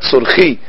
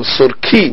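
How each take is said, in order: First: The consonant before the i is a soft kh. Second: The consonant before the i is a hard k. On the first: The speaker calls it wrong. "not surki" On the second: The speaker calls it right. "with a dagesh in the Kaf. So surki"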